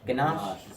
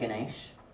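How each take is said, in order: First: The second syllable sounds like 'ash'. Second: The second syllable sounds like 'esh'. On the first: The speaker calls it right. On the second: The speaker calls it wrong.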